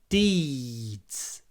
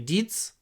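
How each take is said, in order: First: The vowel is long and drawn out. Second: The vowel is short and clipped. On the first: The speaker calls it right. "Deeds before the voiced d" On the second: The speaker calls it wrong. "If you just say deeds, it will sound a bit like deeds"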